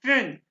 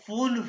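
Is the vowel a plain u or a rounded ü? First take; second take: ü; plain u. First: The vowel is a rounded ü sound. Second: The vowel is a plain u sound. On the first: The speaker calls it right. "ये ü है" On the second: The speaker calls it wrong. "इसको आपने fünf नहीं कहना"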